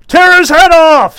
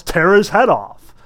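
First: High, loud, harsh demand; severe shout. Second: Mock yell. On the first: A narrator's reading. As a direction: yell it down from the gallery. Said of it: "said severely". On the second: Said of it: "some jerk in the back row yells".

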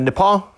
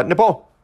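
First: Nepal with an accidental French accent. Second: Said in the usual way. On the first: Real, not acted. Speaker naming a student's country, slight French accent. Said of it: "I think I said that with a French accent". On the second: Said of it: "pardon me".

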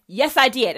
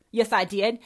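First: Louder, insistent repeat; emphatic repeat. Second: Said in the usual way. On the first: Real, not acted. Daughter repeats to her mother that she did, louder and insistent. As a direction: hammer it home the second time.

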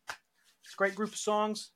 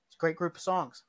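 First: Slower, hushed, savoring each word; 1 slow soft murmur. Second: Said in the usual way. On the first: Shown as a demonstration. Repeating the praise to himself, softly and slowly. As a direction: softly relish it, higher and slower.

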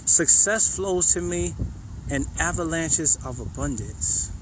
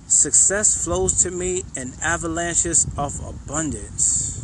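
First: Said in the usual way. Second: Slow affirmation. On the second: Shown as a demonstration. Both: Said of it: "The next one".

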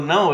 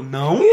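First: Said in the usual way. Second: Um "Não?" debochado, rindo baixinho; debochando. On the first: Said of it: "ela falou". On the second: Retold or imitated. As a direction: repete o "Não?" com deboche e riso contido. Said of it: "eu tava debochando". (ecoa o "Não?" da orientadora, zombando)

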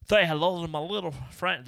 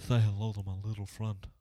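First: Hammed-up Cuban gangster accent, higher and louder; bad Cuban mobster accent, pushed up high; terrible gangster accent. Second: Put-on half-hearted Cuban gangster accent, at normal pitch; a weak second try at the Cuban mobster accent; terrible gangster accent. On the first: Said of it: "that was a terrible accent". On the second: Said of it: "I'm gonna stop the accents".

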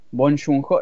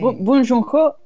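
First: Bong Joon-ho tentative, rising at the end; pronunciación dudosa. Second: Bong Joon-ho pitched high, with a false start and rising end; pronouncing as one pleases. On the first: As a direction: try out the name Bong Joon-ho, unsure of its pronunciation. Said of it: "No sé cómo se pronuncia esto". (Bong Joon-ho dicho con duda, subiendo al final) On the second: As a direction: say Bong Joon-ho boldly your own way, much higher. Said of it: "Lo voy a pronunciar como se me canta". (Bong Joon-ho agudo, pronunciado como se te canta) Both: Real, not acted.

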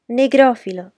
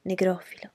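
First: Loud, higher-pitched squeal; shrieked taunt. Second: Softly murmured jeer; hushed taunt. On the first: Cousin taunting from the old kitchen, shrieked. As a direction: shriek it as a jeer. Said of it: "strillò". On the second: Cousin needling the supposedly tamed girl, under his breath. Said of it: "si mise a canticchiare sottovoce". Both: A narrator's reading.

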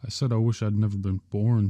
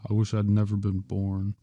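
First: Insist, every word firm. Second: Said in the usual way. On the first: Acted. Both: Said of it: "George repeated firmly".

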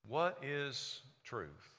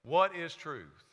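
First: "What is truth?" drawn out very slowly and softly; hushed rhetorical question. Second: "What is truth?" spoken slowly at normal volume; slow emphatic question. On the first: Acted. Pilate asking Jesus, slow and hushed. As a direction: let "What" fall and linger, quiet and slow. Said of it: "Pilate said to him". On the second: Shown as a demonstration. Preacher repeating Pilate's question, slow and firm. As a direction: lean on "What", slow and deliberate. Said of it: "That was Pilate's question".

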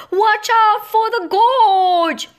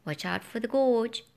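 First: High, loud, slow warning shout; loud, high alarmed shout. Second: Said in the usual way. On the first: A narrator's reading. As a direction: yell to stop a fall. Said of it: "and shouted".

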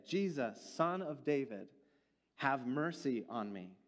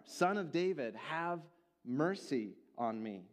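First: Understated cry for mercy, slowing at the end. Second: Raised cry, high at first, slowing on the plea; crying out more. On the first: Blind man calls to Jesus for mercy, crying out with restraint. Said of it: "he cried out". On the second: Rebuked blind man cries out all the more to Jesus, insistent. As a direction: call out more insistently, then draw out the mercy. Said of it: "he cried out all the more". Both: A narrator's reading.

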